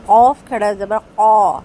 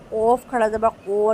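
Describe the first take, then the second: First: قا heavy but lips not rounded; correct qaaf. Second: قو with lips rounded, the wrong way; wrong rounded qaaf. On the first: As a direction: say قاف کھڑا زبر قا without rounding. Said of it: "ہونٹوں کو گول نہیں کریں گے". (صحیح، ہونٹ گول کیے بغیر) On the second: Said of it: "نہیں". (غلط، ہونٹ گول کر کے قو) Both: Shown as a demonstration.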